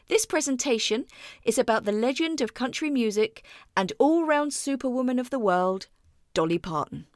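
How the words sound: It is said with a couple of pauses.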